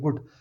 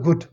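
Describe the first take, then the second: First: The word is said flatly, with no energy. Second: The word is said excitedly, with lively energy. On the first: The speaker calls it wrong. "वो मरा सड़ा गुड नहीं निकलेगा" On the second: The speaker calls it right. "आपके मुंह से निकलेगा गुड"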